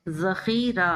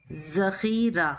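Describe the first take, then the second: First: जखीरा with a light, soft zaal z; correct soft zaal. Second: जखीरा drawn out slowly with a hard, pressed ze; wrong hard ze. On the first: Teacher shows students the right soft zaal in जखीरा. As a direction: say जखीरा softly, the z barely pressed. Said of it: "ये सही है". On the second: Teacher contrasts the wrong version, slow hard z in जखीरा. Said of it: "ये गलत है". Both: Shown as a demonstration.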